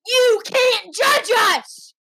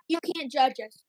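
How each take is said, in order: First: High, slow, forceful yell; loud protest. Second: Said in the usual way. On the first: Pretend. Kid tells Mom and Dad off on air, loud protest. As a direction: shout it slowly, each word stretched.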